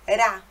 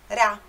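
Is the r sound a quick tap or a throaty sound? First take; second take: tap; tap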